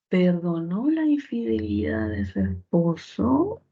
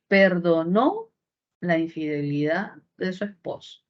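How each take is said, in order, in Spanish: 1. La melodía sube al final. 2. La melodía baja al final. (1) "con tono final ascendente, oración interrogativa directa total" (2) "Si yo cambio el tono y lo llevo hacia abajo"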